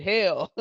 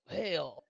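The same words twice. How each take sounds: First: Louder, higher mock-angry curse; mock mad. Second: Soft, understated frustrated curse; mildly frustrated. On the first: Streamer imitating their own cussing when really mad, mock angry. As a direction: punch it out, playfully mad. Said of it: "She's really mad now". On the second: Retold or imitated. Streamer imitating their own rare cussing, mildly frustrated. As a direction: let it out softly, a touch frustrated. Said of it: "Oh, she's frustrated".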